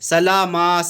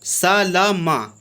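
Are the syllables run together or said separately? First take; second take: run together; separately. First: The syllables run together as one word. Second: Each syllable is said separately in turn. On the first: The speaker calls it wrong. "लोग पढ़ते हैं सलामा सालामा, ऐसे नहीं पढ़ना है, ये गलत तरीक़ा है" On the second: The speaker calls it right. "इसको तरतीब से पढ़ना है"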